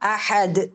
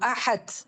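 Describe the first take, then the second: First: The final consonant is released cleanly without breath. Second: The final consonant is released with audible breath. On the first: The speaker calls it right. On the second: The speaker calls it wrong.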